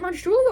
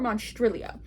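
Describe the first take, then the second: First: The second syllable has an 'oo' vowel. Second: The second syllable has an 'ee' vowel. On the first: "I always was saying Monstrulio, but it's T R I, not T R U" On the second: "it's T R I"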